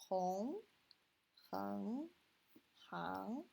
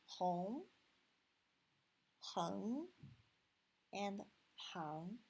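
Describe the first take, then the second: First: "hong", "heng", "hang" each said clearly as drill syllables; first tone syllables. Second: "hong", "heng", "hang" each rising in the second tone. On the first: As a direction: read the three finals one by one. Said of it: "how should we read these three?". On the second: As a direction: let each syllable climb upward. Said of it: "second tone". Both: Shown as a demonstration.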